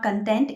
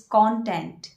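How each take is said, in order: First: Content as kən-TENT; wrong pronunciation. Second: Content slowly as KON-tent; correct pronunciation. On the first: Teacher showing the wrong form, content as kən-TENT. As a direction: content with a weak first syllable. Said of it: "it's not". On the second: Teacher giving the correct form slowly, content as KON-tent. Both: Shown as a demonstration.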